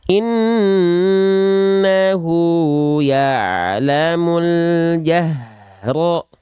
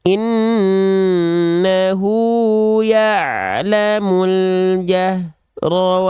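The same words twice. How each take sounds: First: The h is voiced with strong, flowing breath. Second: The h is voiced with weak, unclear breath. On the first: The speaker calls it right. "Kerasa nafasnya mengalir?" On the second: The speaker calls it wrong. "Gak jelas nafasnya mana, suaranya mana"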